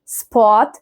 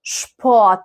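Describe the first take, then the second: First: سبوت starting with a plain S sound; hissing s, not sh. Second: شبوت starting with a "sh" sound. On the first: Teacher showing learners the mistake, plain S in سبوت. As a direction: say سبوت as "sport" with an S. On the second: Teacher showing learners the correct word, "sh" opening in شبوت. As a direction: say شبوت as "shport". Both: Shown as a demonstration. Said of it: "ما بقولش سبوت".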